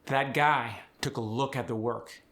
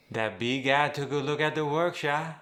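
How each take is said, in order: First: Said in the usual way. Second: Easy Cajun lilt with a rise at the end; Cajun accent. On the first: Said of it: "final K and the final G". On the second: Shown as a demonstration. Coach showing full Cajun accent on a sentence. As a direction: sing it out Cajun style. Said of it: "softened at the end of words".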